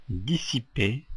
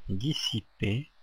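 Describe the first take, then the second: Both takes have the same delivery.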